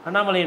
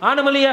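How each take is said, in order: First: It is said with a short first vowel, double n. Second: It is said with a long first vowel, single n. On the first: It is how the name should be said. The speaker calls it right. "அழகாக சொல்ல வேண்டிய பேர் அது" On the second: It imitates someone who cannot pronounce the name. The speaker calls it wrong. "சரியாக உச்சரிக்க தெரியாதவர்கள்"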